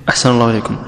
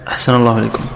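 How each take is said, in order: Both takes have the same delivery.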